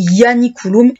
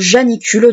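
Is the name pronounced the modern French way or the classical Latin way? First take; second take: Latin; French. First: It is pronounced the classical Latin way. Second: It is pronounced the modern French way. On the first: This is how the Romans said it. "si vous voulez vraiment le prononcer tel qu'on le prononçait en latin" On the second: This is the form most people know. "du moins c'est celui qu'on va retenir le plus"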